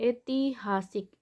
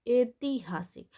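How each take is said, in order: No difference in how they are said.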